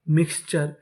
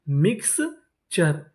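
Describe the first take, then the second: First: Said in the usual way. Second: mixture slowly split into mix and चर; syllable by syllable. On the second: Shown as a demonstration. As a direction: sound out mixture in separate parts. Teacher sounding out new word.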